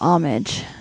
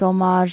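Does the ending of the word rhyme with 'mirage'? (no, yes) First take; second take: no; yes. First: The ending does not rhyme with mirage. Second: The ending rhymes with mirage. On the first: "Instead of homage" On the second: "you're saying like homage, like mirage"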